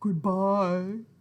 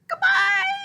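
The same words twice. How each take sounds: First: It is said in a very low voice. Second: It is said in a very high voice.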